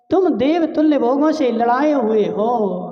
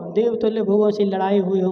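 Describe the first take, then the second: First: Lightly acted plaintive mother; mother's lament. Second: Said in the usual way. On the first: Mother reminding pampered sons, mild lament. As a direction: plead with the sons, a touch of wailing. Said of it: "रोते रोते क्या बोल रही है". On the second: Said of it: "मतलब".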